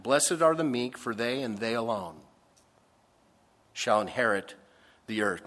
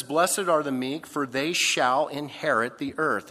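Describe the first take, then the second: First: "they and they alone" slowed and weighted, "shall" hit hard; stress on they alone. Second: Said in the usual way. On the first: Shown as a demonstration. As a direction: lean on "they alone", pause before "shall inherit". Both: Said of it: "And that's emphatic".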